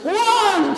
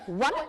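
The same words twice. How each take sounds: First: It is said like a church preacher. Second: It is said like a strict teacher.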